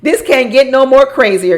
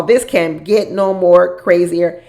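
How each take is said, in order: First: Loud exclaim. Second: Each word drawn out slowly; slow it right down and lean on it; slow emphatic repeat. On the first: Reacting to the show's drama. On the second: Vlogger repeating her reaction to the show, slowly. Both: Real, not acted.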